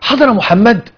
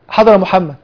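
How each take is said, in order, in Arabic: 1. يُقال بنبرة دهشة وتعجب. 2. يُقال بنبرة محايدة مسطّحة. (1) "يتعجب كأنه بتعجب" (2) "خلاص ده إخبار"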